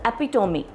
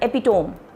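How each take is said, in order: First: It is said the standard way. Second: It is said the Indian English way. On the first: The speaker calls it right. "But the pronunciation is epitome" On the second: The speaker calls it wrong. "in Indian English, we normally pronounce it as epitome"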